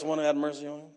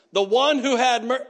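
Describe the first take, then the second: First: Low, reluctant mumble; grudging reply. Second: Said in the usual way. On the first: Shown as a demonstration. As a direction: say it as if the words won't come out of your mouth. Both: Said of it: "now I think he said it like this".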